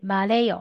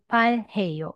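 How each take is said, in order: First: The h sound is weakened and linked over. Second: The h sound in the middle is clearly pronounced. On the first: "maleyo 会更贴近韩国人的口说" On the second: "你可以读"ban heyo""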